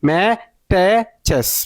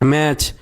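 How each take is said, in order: First: The word is broken into three syllables. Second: The word is said as one syllable. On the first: The speaker calls it wrong. "যারা reading পড়তে না পারে তারা কি বলবো? ... ভাই এটা তো হইল না" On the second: The speaker calls it right. "টি সিজ যেখানে দেখবো সেখানে চ উচ্চারণ করবো"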